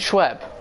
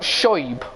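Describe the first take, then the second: First: The name is said like 'Schweb'. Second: The name is said like 'Shoib'. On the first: This is how the speaker says the name. The speaker calls it right. "I call him Schweb" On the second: This is how the other person says the name. The speaker calls it wrong. "not Shoib or whatever you're trying to say"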